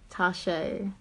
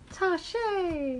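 First: The name is said flatly, without emotion. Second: The name is said with emotion and energy.

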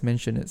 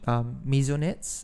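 First: It has an extra 'n' sound before the 's'. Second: It has no extra 'n' sound before the 's'. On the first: The speaker calls it wrong. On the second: The speaker calls it right.

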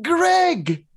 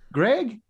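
First: It is said as a falling exclamation. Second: It is said as a rising question.

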